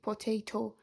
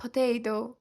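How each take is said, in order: First: Potato with crisp T in the last syllable, po-tay-toh; teacher's careful po-TAY-toh, the version to avoid; non-native potato. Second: Teacher's American-style puh-TAY-doh; native-like potato. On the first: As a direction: sound both Ts fully in potato. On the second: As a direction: turn the last T of potato into a quick D. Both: Shown as a demonstration.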